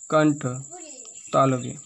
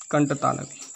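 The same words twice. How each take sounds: First: कंठ and तालव्य split by a long pause; spaced out for emphasis. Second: Said in the usual way. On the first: Shown as a demonstration. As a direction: set each word apart for the class. (कंठ और तालव्य अलग-अलग ज़ोर देकर) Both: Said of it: "इसलिए इसका नाम पड़ गया".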